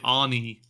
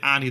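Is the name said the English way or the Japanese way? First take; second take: Japanese; English. First: The name is said with a Japanese pronunciation. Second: The name is said with an English pronunciation. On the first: "the way the Japanese actors say Ani" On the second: "they don't say Annie"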